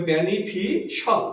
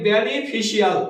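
First: বেনিফিশাল ending in -shal with no i, slowly; correct beneficial. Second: বেনিফিশিয়াল with a full -ial ending, like benifishial; common wrong beneficial. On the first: Teacher to students, giving the correct বেনিফিশাল with -shal. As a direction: say বেনিফিশাল as benifishal, slow. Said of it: "উচ্চারণ হবে". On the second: Teacher to students, showing the wrong বেনিফিশিয়াল with -ial. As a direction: say বেনিফিশিয়াল with the i sounded before -al. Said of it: "আমরা বলি". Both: Shown as a demonstration.

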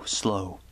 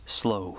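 First: Slow breathed out as a whisper; slow whispered and drawn out. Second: Said in the usual way. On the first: A narrator's reading. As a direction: let slow fade into a whisper. Narrating the slow rising monster.

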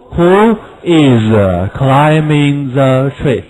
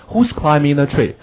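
First: Slow who is kept apart; who is, not linked; slow unlinked form. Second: Said in the usual way. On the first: Shown as a demonstration. Teacher shows unlinked words before linking. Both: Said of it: "可以连读".

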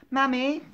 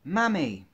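First: "Mummy" high with a rising end; high, lifted "Mummy?"; questioning MUMMY. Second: "Mummy" with a falling end; corrected "Mummy", pitch coming down. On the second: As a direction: say "Mummy" as a statement, dropping at the end. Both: Acted. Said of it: "No, hang on".

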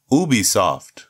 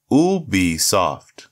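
First: Said in the usual way. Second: Ubisoft said slowly, each syllable apart. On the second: Shown as a demonstration. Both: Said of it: "break it down syllable by syllable".

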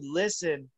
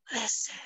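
First: Said in the usual way. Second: A soft high command, hushed; ghostly whisper. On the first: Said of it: "right when it said". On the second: Retold or imitated. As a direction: hush it like a phantom. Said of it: "the voice just goes".

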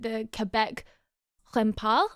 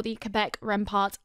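First: Tentative attempt at a French accent. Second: Said in the usual way. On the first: Shown as a demonstration. Host trying the team's name as it's meant, French accent. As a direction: try the French pronunciation, unsure. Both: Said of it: "meant to be said in a French accent".

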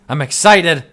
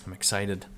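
First: Louder, higher and eager; excited. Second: Deadpan, low and soft; flat deadpan. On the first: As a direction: really sell the excitement. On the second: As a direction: say it with zero enthusiasm. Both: Shown as a demonstration.

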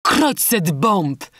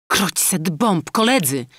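First: Very slow, higher, louder oath; captain Falcon swearing over the poisoned maid; captain's exclamation. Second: Slow, higher, louder oath; surgeon's exclamation. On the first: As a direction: drag out the curse in a new voice. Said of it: "wykrzyknął kapitan Falcon". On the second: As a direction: spit out the curse, dragged out and raised. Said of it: "wykrzyknął chirurg". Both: A narrator's reading.

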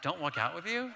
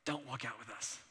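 First: "Don't walk out with you?" with a rising question on "you"; incredulous echo. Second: Softer, flat "Don't walk out with us."; cold low warning. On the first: [name] echoing his brother's words back, stunned and rising. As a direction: throw the words back in disbelief. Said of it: "I'm like". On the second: Brother telling [name] after the talk, softer and cold. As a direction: mutter "Don't walk out with us." under the breath. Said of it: "my brother looks at me and he goes". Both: Retold or imitated.

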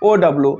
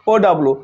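The two takes are said the same way.

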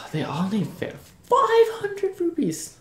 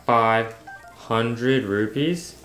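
First: High, slow, sing-song mock fairy; exaggerated fairy voice. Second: Slow, drawn-out disbelieving question; incredulous. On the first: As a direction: stretch it out in a silly high voice. Groans at the fairy's price. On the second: Real, not acted. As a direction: hold each word in disbelief. Shocked at the fairy's price.

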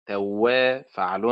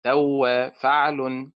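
First: Slow توا, stressed on وا; stress on second syllable. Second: Slow توا, stressed on تو; wrong stress, first syllable. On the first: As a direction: lean on the وا of توا, drawn out. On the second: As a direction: punch the تو of توا, drawn out. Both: Shown as a demonstration. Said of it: "وليس توا فعل".

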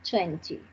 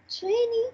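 First: "twenty" as "twen-tee", second t sounded. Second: "twenty" as "tweni", second t dropped; twenty without T. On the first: Teacher showing the other accepted form, "twenty" with clear t. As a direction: pronounce both t's in "twenty". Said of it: "también puedes decir twenty". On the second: Teacher showing one accepted form, "twenty" as "tweni". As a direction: say "twenty" with a silent second t, pitched up. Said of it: "Puedes decir twenty". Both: Shown as a demonstration.

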